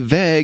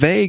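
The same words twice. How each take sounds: First: The vowel is short and flat, like 'veg'. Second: The vowel is a long 'ay', like 'vague'. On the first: The speaker calls it wrong. "you say vague" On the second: The speaker calls it right. "instead of vague"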